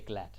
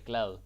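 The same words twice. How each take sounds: First: The final D is hard, like T. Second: The final D is soft. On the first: It means slippery. The speaker calls it wrong. "Don't say glad. That's no, no" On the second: It means happy. The speaker calls it right. "It's important that you pronounce the D in a soft way. So you say glad"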